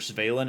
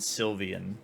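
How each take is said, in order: First: The name is said with two syllables. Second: The name is said with three syllables. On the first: "the two I've heard the most are" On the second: "the two I've heard the most are"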